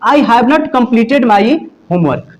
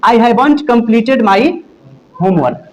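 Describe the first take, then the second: First: 'Have not' is said as two full words. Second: 'Have not' is contracted into one short word.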